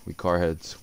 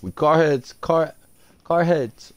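First: Said in the usual way. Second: Higher, louder hype call; hyped. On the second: Real, not acted. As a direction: pump it up like a chant. Repeats phrase hyped.

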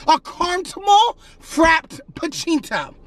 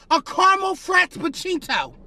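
First: "caramel frappuccino" slowly, each word set apart; emphatic repeat. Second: Said in the usual way. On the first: Acted. Customer insisting on the coffee that was ordered, slow emphatic repeat.

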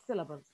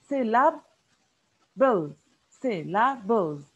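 First: Said in the usual way. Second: "Syllables" split slowly and loudly, sy-la-bles; broken into syllables. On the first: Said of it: "Take an example, the word syllables". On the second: Shown as a demonstration. Teacher showing the sounds, "Syllables" broken into sy, la, bles. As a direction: sound out "Syllables" piece by piece with gaps. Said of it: "when we say sounds, we mean the vowels".

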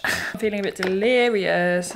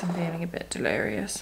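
First: Said in the usual way. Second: Much softer, almost under breath; muttered repeat. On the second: Real, not acted. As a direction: say it again to yourself, quietly.

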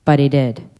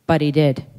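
The two takes are said the same way.

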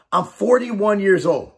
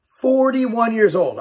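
First: Slow, deliberate statement of the age; slow emphasis. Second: "Forty-one" hit slowly with a falling tune; a slow, insistent repeat for emphasis; stronger repeat. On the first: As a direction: spell out the age slowly, each word weighted. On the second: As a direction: repeat it slowly and drive it home. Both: Shown as a demonstration.

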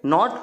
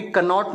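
First: नॉट starting straight on the n; silent K. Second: कनॉट with a sounded "ka" before the n; K pronounced. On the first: Teacher showing pupils how knot is read, K silent in नॉट. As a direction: say नॉट with no "ka" before it. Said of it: "के silent हो जाता". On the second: Teacher warning pupils off misreading knot, K pronounced in कनॉट. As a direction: say कनॉट, voicing the silent K. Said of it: "नॉट को भी कनॉट नहीं पढ़ते". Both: Shown as a demonstration.

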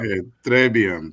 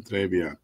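First: "très bien" drawn out slowly, a French-style demo; slow French phrase. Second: Said in the usual way. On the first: Shown as a demonstration. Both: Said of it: "Which means very good".

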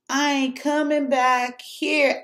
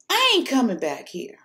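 First: Slow and firm, spelling out "I ain't coming back here"; slow emphatic vow. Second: Said in the usual way. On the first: Real, not acted. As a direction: draw out each word of "I ain't coming back here" like a final verdict. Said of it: "repeated, slower vow". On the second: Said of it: "repeated vow".

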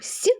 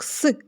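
First: Soft, palatalised «с» on its own; soft S sound. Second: Hard, non-palatalised «с» on its own; hard S sound. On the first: Teacher explaining the two-dash consonant, soft palatalised «с». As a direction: pronounce «с» softened, as before an «і». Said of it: "приголосний м'який". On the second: Teacher explaining the one-dash consonant, hard «с». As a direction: pronounce «с» as a hard consonant, without softening. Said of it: "приголосний твердий". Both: Shown as a demonstration.

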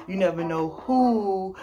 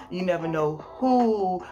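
No difference in how they are said.

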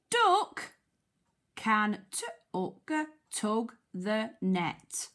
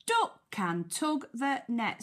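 First: Slow word-by-word phonics reading, "tug" split into sounds; sounding out. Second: Said in the usual way. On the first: Shown as a demonstration. Teacher helping children decode the sentence, sounding out. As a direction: break "tug" into t and uck, then blend it.

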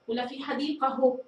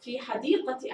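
First: حديقه said with a final h sound, ending ahu; teacher tries حديقه ending in a breathy h. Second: حديقتي said with a clear t, ending ati. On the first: Teacher tests both endings for pupils, ending h. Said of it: "نجرب الاثنتان". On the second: Teacher gives the right answer to pupils, clear t ending. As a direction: give حديقتي its t sound clearly. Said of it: "ما الذي أضبط؟". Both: Shown as a demonstration.

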